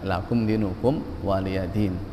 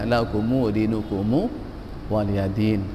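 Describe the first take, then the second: First: Each final m is closed with no vowel after. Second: Each final m is followed by an added u. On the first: "Mim sukun di situ betul-betul dibaca sukun" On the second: "itu dibaca lakumu"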